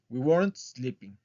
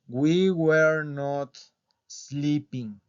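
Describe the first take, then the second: First: Were not is contracted into one syllable. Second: Were and not are said as separate words. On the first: "la contracción de were not" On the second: "pronunciarlo en forma larga"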